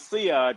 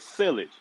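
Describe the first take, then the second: First: It is said the French way, ending in 'zh'. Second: It is said like the farm word 'silage'. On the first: The speaker calls it right. "only to find out it was Siage" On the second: The speaker calls it wrong. "I thought it was silage"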